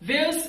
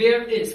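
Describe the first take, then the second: First: The two words are joined into one short word. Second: The two words are said separately and fully.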